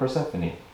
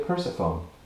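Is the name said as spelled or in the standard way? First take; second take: standard; as spelled. First: It is said the standard way, per-SEPH-o-nee. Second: It is said the way it looks, like purse-phone. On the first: "Not Persephone" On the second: "it looks like it should be a Persephone"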